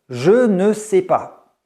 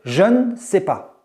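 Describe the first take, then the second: First: The word ne is pronounced fully and clearly. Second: The word ne is reduced to an n sound. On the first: The speech is very formal. "on va clairement prononcer ce ne" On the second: The speech is standard. "on va juste prononcer le N"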